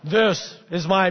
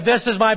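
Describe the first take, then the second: First: It is said in a put-on deep voice. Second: It is said in a normal speaking voice. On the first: "Maybe God's got a deeper voice" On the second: "Maybe I shouldn't try to do that"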